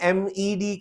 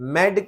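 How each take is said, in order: First: The acronym is spelled out letter by letter. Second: The acronym is said as one word.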